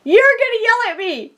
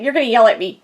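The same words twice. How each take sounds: First: The repeat pitched higher, pleading; a mock whimper to her twindy, higher; higher worried whine. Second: Said in the usual way. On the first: Confessing to her twindy, higher mock whine. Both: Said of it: "I'm like".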